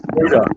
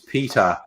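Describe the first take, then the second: First: The name is said in a broad Australian accent. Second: The name is said with standard pronunciation. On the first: "but he pronounced it Poida" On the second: "whose name's Peter"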